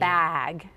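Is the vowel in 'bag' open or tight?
open. The vowel is open, a plain 'bag' sound. "instead of bag"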